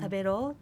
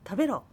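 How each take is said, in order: First: The command sounds soft and gentle. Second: The command sounds harsh and forceful. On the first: It is a kind, friendly urging. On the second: It is a blunt order.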